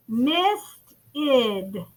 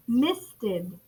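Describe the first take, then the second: First: "Misted" split in two with a gap, mist, id; broken into syllables. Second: Said in the usual way. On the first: Shown as a demonstration. Teacher shows class the E D sound, "Misted" segmented. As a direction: say "Misted" as two separate, drawn-out beats. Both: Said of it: "I hear the E D sound".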